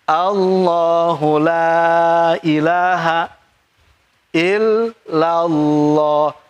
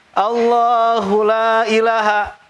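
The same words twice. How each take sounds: First: "la" in "Allahu la ilaha" held long, slow chant; long la, correct. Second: "la" in "Allahu la ilaha" clipped short, not lengthened; short la, wrong. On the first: Teacher corrects the class, slow chant with long "la". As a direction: stretch the "la" vowel fully, slowly. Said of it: "Wajib pan". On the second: Teacher imitates a student's short reading, chanted "la" clipped. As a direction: chant "la" with a brief vowel, as the student wrongly did. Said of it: "Kenapa dibaca pendek?". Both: Shown as a demonstration.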